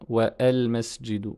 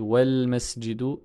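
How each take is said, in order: First: Wa and al are split by a glottal stop. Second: Wa and al run together without a glottal stop. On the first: The speaker calls it wrong. "et pas" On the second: The speaker calls it right. "on ne le prononce pas à la liaison"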